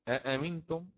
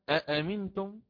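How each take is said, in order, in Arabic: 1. تبدأ الكلمة بهمزتين منفصلتين. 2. تبدأ الكلمة بهمزتين منفصلتين.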